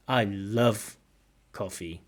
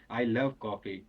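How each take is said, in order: First: Emotional emphasis on "love"; emphatic stress on love. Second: "love" stressed, falling tune. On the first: Shown as a demonstration. Teacher echoes the student's nice intonation. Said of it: "The stress really falling on love". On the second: Real, not acted. Student answers warmly about loving coffee. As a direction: hit "love" with feeling. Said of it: "Nice intonation".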